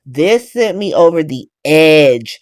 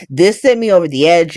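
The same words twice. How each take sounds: First: This sent me over the edge, dragged out slowly word by word; repeating it for the viewers, slow and emphatic. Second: Said in the usual way. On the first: Real, not acted. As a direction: lean on it, slower, every word weighted.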